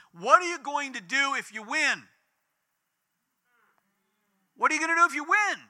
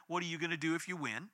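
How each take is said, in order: First: High, loud, rapid shouted question; retold yell. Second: Soft, hushed, pondering echo of the question; quiet reflective repeat. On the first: Protester yelling at praying family behind them, loud high shout. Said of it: "this woman yells right behind him". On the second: Retold or imitated. Family repeating the protester's challenge in prayer, soft and thoughtful. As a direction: turn the taunt over quietly in your mind.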